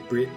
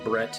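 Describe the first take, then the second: First: The vowel is the short i of 'bit'. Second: The vowel is the short e of 'bet'. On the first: "replacing a lot of vowel sounds with short I sounds" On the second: "instead of saying Brett"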